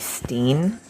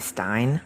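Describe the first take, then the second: First: The name has the vowel of 'seen'. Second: The name has the vowel of 'line'. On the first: The speaker calls it right. "it's actually Steen because my name is [name]" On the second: The speaker calls it wrong. "they call me Stein"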